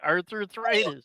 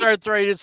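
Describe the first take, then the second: First: The word is said with an extra repeated syllable. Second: The word is said with its usual syllables. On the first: This is a deliberate pun on the word. "I'm making a pun on it" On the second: This is the real name of the condition. "I know it's arthritis"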